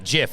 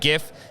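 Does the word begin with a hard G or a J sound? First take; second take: J sound; hard G. First: It begins with a soft J sound. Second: It begins with a hard G sound. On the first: The speaker calls it wrong. "not GIF. It's not a peanut butter" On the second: The speaker calls it right. "I'm glad Mike said GIF"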